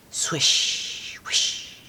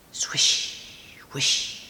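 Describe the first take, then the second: No difference in how they are said.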